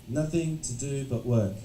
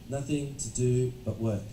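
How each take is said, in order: No difference in how they are said.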